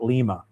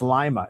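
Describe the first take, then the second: First: The name does not sound like the bean. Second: The name sounds like the lima bean. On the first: This is how an outsider says it. The speaker calls it wrong. "not Lima" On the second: This is how the locals say it. The speaker calls it right. "it's Lima"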